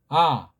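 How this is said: The vowel is relaxed and projected forward. "이건 그냥 소리가 앞으로 나가는 거예요"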